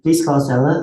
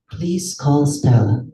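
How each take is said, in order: First: It is an American accent with words gliding together. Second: It is a British accent, slow and evenly spaced. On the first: "Pag American" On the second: "napaka lambing ng British accent, napaka evenly spaced out"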